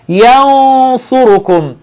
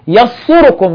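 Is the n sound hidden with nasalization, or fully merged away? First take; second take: hidden; merged. First: The n is hidden as a nasal sound. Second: The n merges fully into the next sound. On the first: The speaker calls it right. "بعمل إخفاء" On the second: The speaker calls it wrong. "ولا بقول يصركم، لا بعمل إظهار ولا بعمل إدغام"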